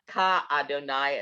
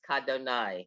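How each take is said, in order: First: It is said as two separate words. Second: It is said smoothly as one word. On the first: The speaker calls it wrong. "It's not ka Adonai" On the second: The speaker calls it right. "it's kadonai. It's not two words"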